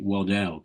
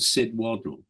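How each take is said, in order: First: The name is said with second-syllable stress. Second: The name is said with first-syllable stress. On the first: "some people pronounced it Waddell" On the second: "a chap called Sid Waddle"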